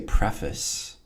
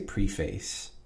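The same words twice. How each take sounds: First: The word is said in a casual, reduced way. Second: The word is said with every sound fully pronounced. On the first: The speaker calls it wrong. "Some people say preface. I don't like that" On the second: The speaker calls it right. "I always overpronounce it"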